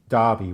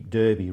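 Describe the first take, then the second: First: It is pronounced the traditional English way. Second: It is pronounced the way it is spelled. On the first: This is how the name is said in England. The speaker calls it right. "which is the way that it would have been pronounced in, in England" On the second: This is how the name is read on the west coast. The speaker calls it wrong. "they look at it phonetically and think it must be Derby"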